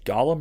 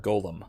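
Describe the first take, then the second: First: The first vowel sounds like 'ah'. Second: The first vowel sounds like 'oh'.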